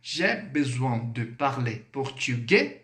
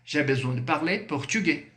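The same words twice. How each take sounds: First: Slow, with "portugais" swinging up at the end; drawn-out question tune rising on "portugais"; question intonation. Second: "portugais" settled without a question rise; affirmative statement. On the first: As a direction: ask it slowly, lifting "portugais". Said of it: "Dessa forma". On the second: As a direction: state it, keeping "portugais" from climbing. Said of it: "Afirmação". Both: Shown as a demonstration.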